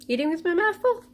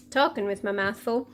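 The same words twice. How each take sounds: First: Mouth full. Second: Corrected, still chewing; mouth full. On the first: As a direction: still chewing, rising question. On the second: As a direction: say it round a mouthful. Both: Real, not acted.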